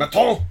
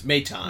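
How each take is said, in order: First: Mock French accent, loud and high; over-the-top French flourish, pitched way up; French pronunciation. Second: Said in the usual way. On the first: Shown as a demonstration. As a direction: belt it out like an exaggerated Frenchman. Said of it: "pronounce it French". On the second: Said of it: "It's Maton".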